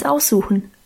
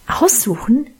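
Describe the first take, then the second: First: Said in the usual way. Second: Rising, challenging question on "Aussuchen"; objecting. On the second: A narrator's reading. Minchen contradicts Guste's plan, protesting. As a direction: throw the word back as an objection. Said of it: "widersprach Minchen".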